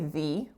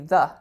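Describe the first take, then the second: First: The vowel is full and clearly pronounced. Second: The vowel is reduced and weak. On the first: The speaker calls it wrong. "we don't typically say the" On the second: The speaker calls it right. "we say the"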